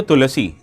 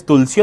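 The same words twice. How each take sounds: First: Tulasi said in three syllables, TU-la-see; three-syllable name. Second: Tulsi said in two syllables, TUL-see; two-syllable name. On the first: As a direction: put a short vowel between l and s in Tulasi. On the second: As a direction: run the l straight into the s in Tulsi. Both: Shown as a demonstration. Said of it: "Is it pronounced as Tulsi or Tulasi?".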